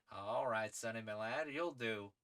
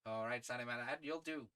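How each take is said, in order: First: Lightly voiced gentleman adventurer, first try; tentative character voice. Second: Lightly voiced English gentleman adventurer; settled character voice. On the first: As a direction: approve of the young man, a bit louder. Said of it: "debating this man's accent". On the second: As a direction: give the lad brisk approval in character. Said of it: "I have a voice in mind".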